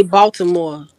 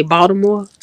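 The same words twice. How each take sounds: First: Baltimore said the Chicago way; Chicago pronunciation. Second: Baltimore said as outsiders to Chicago say it; non-Chicago pronunciation. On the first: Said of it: "we say Baltimore in Chicago". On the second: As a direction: pronounce Baltimore unlike a Chicagoan. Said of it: "We don't say Baltimore". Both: Shown as a demonstration.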